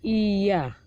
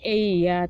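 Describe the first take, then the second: First: The first vowel is a pure, clear i sound. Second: The first vowel drifts toward an e sound. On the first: The speaker calls it right. "tapi iya" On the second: The speaker calls it wrong. "Nggak boleh iya"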